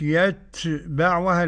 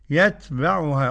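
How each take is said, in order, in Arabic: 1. الحروف فيها هوا همس قوي ومبالغ فيه. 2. الحروف فيها هوا همس خفيف وعادي. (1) "ما فيش بقى الغلو في الهمس" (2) "قولها كده"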